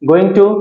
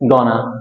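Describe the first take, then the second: First: Both words are said fully and separately. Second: The words are reduced and blended into one.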